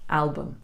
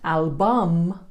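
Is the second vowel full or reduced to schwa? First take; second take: schwa; full. First: The second vowel is reduced to a schwa. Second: The second vowel is said as a full vowel. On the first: The speaker calls it right. "but album" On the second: The speaker calls it wrong. "Not album"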